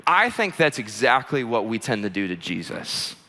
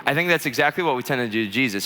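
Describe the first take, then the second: First: Deliberate key point. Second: Said in the usual way. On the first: Real, not acted. Preacher slows down for key point.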